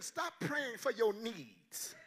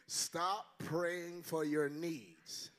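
First: Slow, stressed command "stop praying for your needs"; first take of "stop praying for your needs", pressed out slowly; emphatic line. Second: Very slow, low "Stop praying for your needs" with weight on "Stop"; second take of "Stop praying for your needs", slower and lower; slower, lower repeat. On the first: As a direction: hit "stop" hard, then let the rest fall. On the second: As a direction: lay each word down deliberately. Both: Shown as a demonstration. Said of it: "let me say that again".

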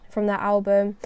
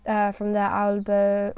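First: Said in the usual way. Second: Put-on slow, accidental French accent on "uh, from their album"; slipping into French accent. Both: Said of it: "that's going French accent there".

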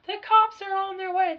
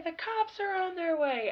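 First: Higher, alarmed mock shout; mock panicked screaming. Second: Higher, fading alarmed repeat; mock panicked screaming. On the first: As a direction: imitate a girl running through the house in panic. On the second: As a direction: repeat the warning as it trails off. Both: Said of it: "screaming that".

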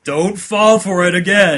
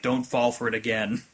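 First: Loud, slow, raised mock-stern warning; serious voice. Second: Low-key, softer mock-stern warning; lightly voiced sober inner voice; serious voice. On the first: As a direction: imitate the sensible voice losing patience. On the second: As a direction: warn quietly, playing the sensible one. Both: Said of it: "your serious voice is like".

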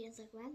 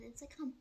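First: Said in the usual way. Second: "Instagram" said as a literal German word; mispronounced nickname. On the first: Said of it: "sondern Instagram". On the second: Shown as a demonstration. Friend insisting on own nickname, "Instagram" in deliberate German reading. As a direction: read "Instagram" German-style, syllable by syllable. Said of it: "Nicht Instagram".

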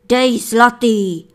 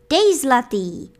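First: Loud, slow, bossy order; miller commanding. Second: Loud, firm order; hunter's command. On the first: Miller orders his wife to drop a coin, loud and bossy. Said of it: "poroučel". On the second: Hunter taps his wife and orders a coin, loud and firm. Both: A narrator's reading.

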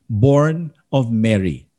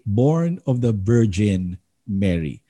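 First: Said in the usual way. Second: "Born of the Virgin Mary" slow, with "Virgin" set apart; slow creed line leaning on "Virgin"; stress on Virgin. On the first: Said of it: "we do not simply say". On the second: Shown as a demonstration. Pastor contrasting creed wording for his class, slow and deliberate. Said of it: "We say".

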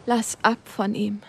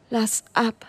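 First: Slow, forced out with the last breath; strained, last strength. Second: "Lass ab" pressed out weaker, almost gone; a fading plea, "Lass ab"; strained, last strength. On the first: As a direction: squeeze "Lass ab von ihm" out, dying. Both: Acted. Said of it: "presste er mit letzten Kräften aus sich heraus".

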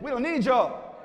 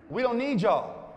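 First: High brush-off with conviction; mean it, punching the rejection; emphatic mock dismissal. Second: High, drawn-out brush-off; mild mock dismissal. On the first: Cool people told to mean it, emphatic mock rebuff. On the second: Cool people rebuff the others, mildly dismissive. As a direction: pretend you can do without them. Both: Shown as a demonstration. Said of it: "Say it like you mean it".

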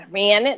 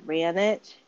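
First: "Ran it" repeated louder to show off the regional accent; regional accent slip. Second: Said in the usual way. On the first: Shown as a demonstration. Speaker poking fun at own speech, regional accent on "Ran it". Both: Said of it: "There's maybe she the accent".

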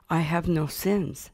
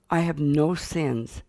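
First: Slow, gently sincere claim; sincere insistence. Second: Slow, proudly measured claim; proud declaration. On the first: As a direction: insist with a touch of childlike sincerity. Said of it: "Sincerely, I said". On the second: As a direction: state it with a child's mild pride. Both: Retold or imitated.

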